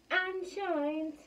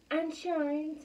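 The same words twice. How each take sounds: The two takes are said the same way.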